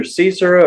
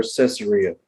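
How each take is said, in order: First: Caesarea said as "SEE-zer-uh"; first pronunciation option. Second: Caesarea said as "sess-uh-REE-uh"; alternative pronunciation. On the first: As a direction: open Caesarea with a long "see" and shorten the ending. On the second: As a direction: open Caesarea with a short "sess" and land on "REE". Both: Shown as a demonstration. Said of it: "It's either Caesarea or Caesarea".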